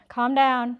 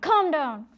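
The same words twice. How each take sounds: First: It is said gently and softly. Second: It is said harshly, like yelling.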